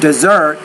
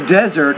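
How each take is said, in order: First: The stress follows the verb pattern. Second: The stress follows the noun pattern. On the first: The word is used as a verb. "I'm using those words as verbs" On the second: The word is used as a noun. "I'm using those words as nouns"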